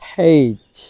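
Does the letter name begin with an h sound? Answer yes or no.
yes. The letter name starts with an h sound. This is a British way of saying it. "ব্রিটিশরা এটাকে হেইচ, হেইচ এভাবে উচ্চারণ করে"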